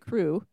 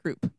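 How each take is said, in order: First: The word ends in a vowel, with no p. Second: The word ends with a p sound. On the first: "I have always pronounced it crew because I read it like coo plus an R" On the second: "everyone at the hospital was saying croup"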